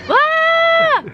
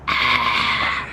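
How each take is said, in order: First: It is a loud, high scream. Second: It is a rough, hoarse sound.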